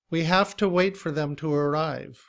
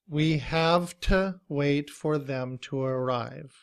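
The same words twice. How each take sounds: First: The sentence is said at a quick pace. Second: The sentence is said at a slow, careful pace.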